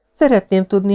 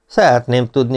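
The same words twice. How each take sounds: First: Put-on high-pitched girl's voice; questioning young woman. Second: Said in the usual way. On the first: Girl turns the Marquis's question back on him, pointed. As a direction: echo his words, pitched well up.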